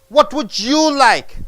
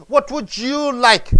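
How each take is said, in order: No difference in how they are said.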